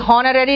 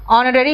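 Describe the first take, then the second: First: The word starts with an audible h sound. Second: The word starts with a vowel, no h. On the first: The speaker calls it wrong. "हॉनररी नहीं है ये" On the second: The speaker calls it right. "ऑनररी होता है"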